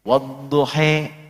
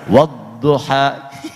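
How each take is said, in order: First: The final vowel is said like e. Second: The final vowel is said like a. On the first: This follows the reading with imalah. "turun riwayat untuk mengakomodir yang e" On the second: This follows the reading without imalah. "yang riwayatnya pakai A di tempat yang E"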